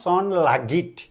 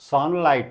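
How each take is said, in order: First: A g sound is pronounced for the gh. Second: The gh is silent, with no g sound. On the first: The speaker calls it wrong. "Not सन लागिट" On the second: The speaker calls it right. "सनलाइट not"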